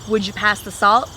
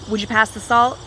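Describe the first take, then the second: First: 'Would you' blends into one word, 'would ya'. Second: The same.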